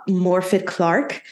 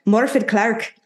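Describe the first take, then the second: First: Said in the usual way. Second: Higher, with an Irish lilt; Irish accent. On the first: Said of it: "I don't know why I wanna say it in, like, an Irish accent". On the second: Pretend. Host retries the actress's name, playful Irish accent. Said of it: "I wanna say it in, like, an Irish accent".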